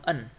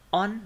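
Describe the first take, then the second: First: On reduced to a short neutral un; weakened with schwa. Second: On said strong, with a full o; full vowel. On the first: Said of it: "By using schwa". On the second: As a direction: give on its full, unreduced vowel. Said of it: "obscure vowel, this is only reducing". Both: Shown as a demonstration.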